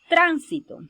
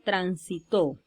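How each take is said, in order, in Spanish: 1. El acento está en la primera sílaba. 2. El acento está en la tercera sílaba. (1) "una palabra esdrújula" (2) "una palabra aguda"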